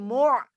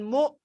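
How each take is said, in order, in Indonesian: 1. Bunyi ayn dengan tenggorokan menyempit mengikuti vokal. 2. Vokal itu tidak diikuti konsonan. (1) "Tapi mu' mu'sira" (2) "Jangan mu"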